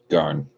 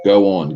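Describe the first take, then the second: First: The words merge into a single syllable. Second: Two separate syllables are said fully. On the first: "pronounce everything super simple" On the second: "let's say go on"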